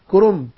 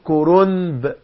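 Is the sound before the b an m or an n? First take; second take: m; n. First: An m sound is pronounced before the b. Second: An n sound is pronounced before the b. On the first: The speaker calls it right. "بقلب نون إلى ايه؟ إلى ميم" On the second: The speaker calls it wrong. "ولا في حد بيقول كرومب؟ لا"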